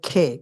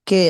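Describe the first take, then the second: First: The first consonant is aspirated, with a puff of breath. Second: The first consonant is plain, without a puff of breath. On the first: The speaker calls it right. "এটা যখন আমরা উচ্চারণ করবো খে" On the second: The speaker calls it wrong. "কে না"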